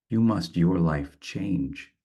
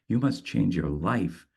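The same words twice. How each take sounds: First: "You must your life change" said slowly, with the weight on the final "change"; slow German-order line ending on "change"; stress on change. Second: "You must change your life" with the weight landing on "life"; end-weighted English word order; stress on life. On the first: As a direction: let "change" land last and heavy. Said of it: "puts the emphasis on ... change". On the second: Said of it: "puts the emphasis on life in the English". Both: Shown as a demonstration.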